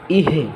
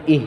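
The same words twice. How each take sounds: First: ইহে with h released into e; released jazm, wrong. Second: ইহ stopped on h, no trailing vowel; held jazm. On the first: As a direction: add a vowel after the h in ইহে. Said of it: "সাইডে দিলে ইহে হয়ে যাবে". (জজম ছেড়ে দিয়ে ইহে) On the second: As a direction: keep the h of ইহ held. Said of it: "আর ধরে রাখলে ইহ". (জজম ধরে রেখে ইহ) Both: Shown as a demonstration.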